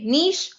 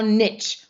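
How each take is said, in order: First: "niche" pronounced "neesh"; niche like quiche. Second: "niche" pronounced "nitch"; niche like itch. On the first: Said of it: "rhymes with quiche". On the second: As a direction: say "niche" with short i and tch, rhyming with itch. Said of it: "pronounce it rhymes with". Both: Shown as a demonstration.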